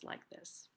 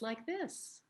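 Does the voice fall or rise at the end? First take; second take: fall; rise. First: The voice falls at the end. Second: The voice rises at the end. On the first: The speaker calls it right. "slight downward inflection that displays strength and groundedness" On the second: The speaker calls it wrong. "rather than ending my sentence like this"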